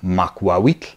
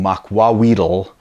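First: The final tl is one sound. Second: The final tl becomes an extra syllable tull. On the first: The speaker calls it right. "if you hear the end of that" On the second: The speaker calls it wrong. "I'm not saying makwawitl ... as a lot of people will say"

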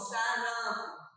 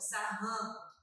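First: The middle R is a soft, light tap. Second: The middle R is a strong, rough sound. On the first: The speaker calls it right. "É o R fraco" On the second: The speaker calls it wrong. "Estaria errado"

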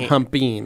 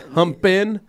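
First: The word ends with a final g sound. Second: The word ends without a final g sound. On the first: The speaker calls it wrong. "not humpin'" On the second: The speaker calls it right. "the word is humpin'"

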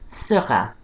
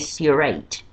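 First: It is pronounced in French with a French R. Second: It is pronounced in an English way. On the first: The speaker calls it right. "He's called Seurat" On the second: The speaker calls it wrong. "Don't say Seurat"

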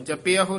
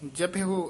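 First: The word ends in an 'a' vowel. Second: The word ends in an 'o' vowel. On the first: The speaker calls it wrong. "ਨਹੀਂ ਕਹਿਣਾ ਐੜਾ ਲਾ ਕੇ ਵਿੱਚ" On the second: The speaker calls it right. "ਜਪਿਓ ਇਸ ਤਰ੍ਹਾਂ ਬੋਲਣਾ ਹੈ"

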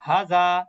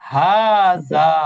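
First: The vowels are said short. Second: The vowels are said long. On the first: The speaker calls it wrong. "আমরা অনেক সময় উচ্চারণ করি হাজা হাজা" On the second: The speaker calls it right. "আসলে কিন্তু হাজা না, হাজা। ... দুই জায়গায় মাত হবে"

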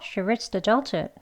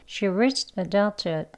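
First: The sentence is said at a fast pace. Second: The sentence is said at a slow pace. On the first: "빨리도 해볼게요" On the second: "천천히 느린 속도로 해볼게요"

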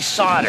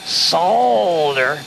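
First: The L sound is left out of the word. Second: The L sound is pronounced in the word. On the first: The speaker calls it right. "You don't pronounce the L. You just say solder" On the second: The speaker calls it wrong. "If you say solder, the clerks are going to stay away from you"

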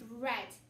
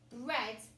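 First: The vowel is a short 'e' sound. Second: The vowel is a short 'e' sound.

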